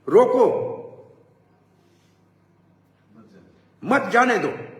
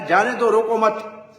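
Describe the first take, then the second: First: The pause comes right after 'roko', meaning stop. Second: The pause comes after 'roko mat', meaning don't stop.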